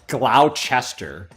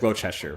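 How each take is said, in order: First: The name is said the way it is spelled. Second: The name is said the shortened local way. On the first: The speaker calls it wrong. "A lot of people would want to say" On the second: The speaker calls it right. "instead of"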